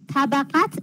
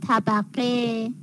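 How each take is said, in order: First: The word ends with a 't' sound. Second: The word ends with an 'e' vowel. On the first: The speaker calls it wrong. "طبقت اشتباهه" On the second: The speaker calls it right. "تلفظ صحیح طبقه"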